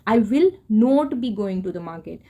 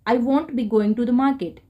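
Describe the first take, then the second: First: The words 'will not' are said in full. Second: The words 'will not' are contracted to 'won't'.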